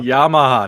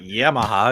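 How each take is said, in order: First: The first syllable sounds like 'yah'. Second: The first syllable sounds like 'yam'. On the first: The speaker calls it right. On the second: The speaker calls it wrong.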